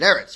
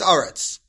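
First: The first vowel sounds like e. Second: The first vowel sounds like a. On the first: The word falls in the middle of a verse. "If it's in the middle of a Pasuk, so it's pronounced the way I just said it" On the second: The word falls at the end of a verse. "found at the end of the Pasuk... so it's not Eretz, but rather it's Aretz"

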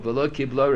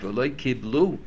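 First: The last word ends with an 'oh' vowel. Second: The last word ends with an 'oo' vowel. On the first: One individual did not accept it. "Rabbi Meir didn't accept it" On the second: The community did not accept it. "The tzibur didn't accept it"

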